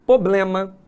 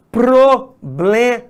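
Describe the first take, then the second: First: Problema with the first R dropped, po-blema; no R after the P in problema; common mispronunciation. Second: Problema with the R clearly sounded in PRO; slow, syllable by syllable PRO-BLE-MA; correct pronunciation. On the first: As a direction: say problema the faulty everyday way. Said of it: "é muito comum de a gente encontrar as pessoas falando". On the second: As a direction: model Problema carefully, hitting the PR. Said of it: "E aí o correto é". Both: Shown as a demonstration.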